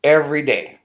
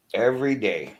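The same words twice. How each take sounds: First: Said in the usual way. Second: Softer, a resigned second saying; quieter echo. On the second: Real, not acted. Venting about rude people he sees, the repeat said softer. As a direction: let the repeat fall away softly. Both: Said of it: "repeated for emphasis".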